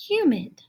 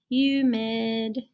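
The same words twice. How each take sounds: First: Said in the usual way. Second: "Humid" read slowly and clearly; dictionary read of "Humid". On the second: Shown as a demonstration. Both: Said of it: "show you the dictionary".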